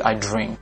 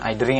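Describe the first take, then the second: First: The final k is clearly released. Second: The final k is held without release. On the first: The speaker calls it right. "tapi I drink" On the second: The speaker calls it wrong. "bukan I drink"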